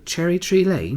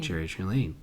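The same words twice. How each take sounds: First: It is said in a put-on British-style accent. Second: It is said in the speaker's ordinary accent. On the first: The speaker calls it right. "can you say it like in Mary Poppins accent?" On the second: The speaker calls it wrong. "it sounds even worse when you say it"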